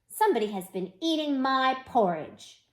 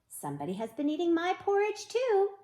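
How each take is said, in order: First: It is growled in a loud voice. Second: It is said in a normal voice.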